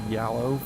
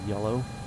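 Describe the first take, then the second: First: The first vowel sounds like the one in 'cat'. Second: The first vowel sounds like the one in 'bed'. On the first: The speaker calls it wrong. "I used to say yallow for like the first fifteen years of my life until kids in high school made fun of me" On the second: The speaker calls it right. "so I taught myself how to say yellow"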